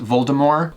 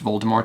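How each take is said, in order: First: The final T is left silent. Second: The final T is clearly pronounced. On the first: The speaker calls it right. "meant the T to be silent. So it's really pronounced Voldemort" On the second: The speaker calls it wrong. "in the movies it's pronounced Voldemort"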